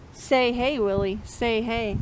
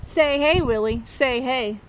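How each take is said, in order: Both takes have the same delivery.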